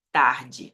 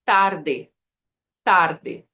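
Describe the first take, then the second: First: Tarde with Portuguese R, ending dji. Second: Tarde with hard t and tapped r; Spanish tarde. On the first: Teacher comparing for learners, Portuguese tarde. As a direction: say tarde as tahr-djee. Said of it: "A diferença vem no R". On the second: Teacher showing T is like Portuguese, Spanish tarde. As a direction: end tarde in a clear eh. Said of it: "eu falo como português". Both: Shown as a demonstration.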